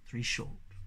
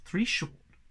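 First: Soft whisper; faint echoing whisper. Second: Said in the usual way. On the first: A narrator's reading. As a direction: fade the signal to a whisper. Whistle signal echoed faintly.

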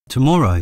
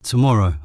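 First: Higher and louder, a stunned echo of his word; disbelieving. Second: Said in the usual way. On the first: A narrator's reading. Sister hearing James is coming home tomorrow, disbelieving. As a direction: throw the word back in disbelief. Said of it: "with disbelief in her voice".

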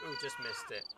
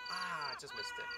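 First: Said in the usual way. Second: Slow, drawn-out mock disappointment ending on a rise; mock lament. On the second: Real, not acted. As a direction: stretch it out as a hammed-up groan of loss.

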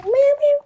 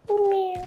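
First: Higher, squeaky cat meows. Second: Quiet, softer little meow; a small, soft cat call. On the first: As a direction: meow up high like a kitten. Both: Pretend. Meowing like a cat, soft then high.

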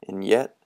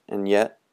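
The two takes are said the same way.

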